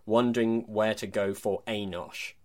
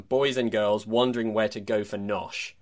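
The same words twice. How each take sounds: First: Wondering where to go for a nosh, with the weight landing on nosh; slow, savour the a nosh rhythm; stress on nosh. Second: Put-on boys and girls wondering where to go for nosh, ending stressed wrong; flat ending on nosh. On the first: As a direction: nosh hit as the punchline. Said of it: "whereas he'd written". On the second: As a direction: read the misprint deadpan. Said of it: "The offending phrase was published as". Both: Shown as a demonstration.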